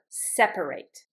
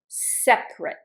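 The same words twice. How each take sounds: First: It has three syllables, middle vowel heard. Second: It has two syllables, middle vowel dropped. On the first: It is the verb. "I pronounce it in the verb" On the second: It is the adjective. "I only pronounce separate. I don't pronounce the A"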